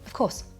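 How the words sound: It is said sharply and clipped. The speaker is annoyed. "If you say it sharply and clipped, it can sound annoyed"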